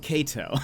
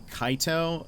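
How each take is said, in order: First: The first vowel does not sound like 'eye'. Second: The first vowel sounds like 'eye'. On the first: The speaker calls it right. "It's probably Kato. This makes much more sense" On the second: The speaker calls it wrong. "I guess I'd be like a Japanese like ex like uh pronunciation"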